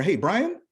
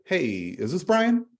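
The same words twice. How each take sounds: First: High rising familiar ask; casual questioning. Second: Slow, higher polite ask; formal phone question. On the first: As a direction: say it like you know him. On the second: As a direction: ask it like a stranger calling. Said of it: "you say". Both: Shown as a demonstration.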